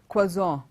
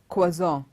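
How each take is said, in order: Both takes have the same delivery.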